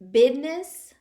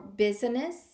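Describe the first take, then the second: First: The middle sound is a d, like bidness. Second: The middle sound is a z, standard pronunciation. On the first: The speaker calls it wrong. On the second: The speaker calls it right.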